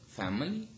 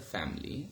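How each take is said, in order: First: A weak vowel is heard between m and l. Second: No vowel is heard between m and l. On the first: The speaker calls it wrong. "we do not say family" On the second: The speaker calls it right. "but rather family"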